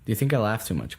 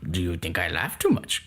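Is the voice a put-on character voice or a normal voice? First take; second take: normal; character voice. First: It is said in a normal speaking voice. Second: It is said in a put-on character voice. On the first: "The way I said it the first time?" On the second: "now say it with the Yoda voice"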